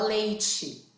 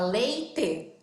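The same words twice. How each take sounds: First: The final syllable has a hissing ch sound. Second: The final syllable has a plain, hard t sound. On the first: "a gente fala leite... Esse chiado no final" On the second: "Em vez da gente falar"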